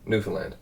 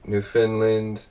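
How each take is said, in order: First: It is said quickly with the syllables run together. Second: It is said slowly with every syllable distinct. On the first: This is how locals say it. The speaker calls it right. "pretty much just speed it up" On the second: This is how outsiders say it. The speaker calls it wrong. "I've heard so many people, pretty much anyone outside Newfoundland"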